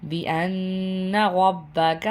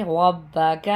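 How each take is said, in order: First: Said in the usual way. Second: The ر in رَبَّكَ full and thick, doubled ب held; heavy raa. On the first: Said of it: "را ہے، موٹا پڑھیں گے". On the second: Shown as a demonstration. Teacher correcting the reading of رَبَّكَ with a heavy ر. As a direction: give رَبَّكَ a heavy, rounded ر. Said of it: "موٹا پڑھیں گے".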